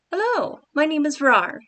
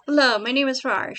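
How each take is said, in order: First: Hello pitched much higher and louder; redone higher greeting. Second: Loud friendly greeting at usual pitch; first try at Rar's line. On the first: Writer redoing Rar's greeting, pitched much higher. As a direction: lift the hello high and bright. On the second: Writer trying out Rar's greeting, loud and friendly. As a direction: say Rar's hello loud and plain. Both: Shown as a demonstration.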